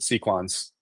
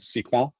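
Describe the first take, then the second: First: The final S sound is clearly pronounced. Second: The final S sound is left silent. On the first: "pronounces the S" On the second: "the French would pronounce it sequin and not pronounce the S"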